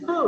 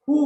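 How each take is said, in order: First: "who" said as plain "hoo"; "who" without any W; silent W. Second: "who" begun with pursed W lips; "who" with an added W; wrong W in who. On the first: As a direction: say "who" starting on H alone. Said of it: "it is who". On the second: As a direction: say "who" as a rounded "hwoo". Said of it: "You don't have to say". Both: Shown as a demonstration.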